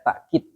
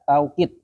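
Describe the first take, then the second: First: A glottal stop follows the first vowel. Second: The first syllable has an 'au' diphthong. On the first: "Pakai takkid, pakai hamzah" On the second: "Yang pertama dibaca taukid. Ya, ada wawunya"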